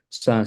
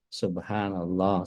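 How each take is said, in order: First: It is said fast and slurred. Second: It is said slowly and clearly.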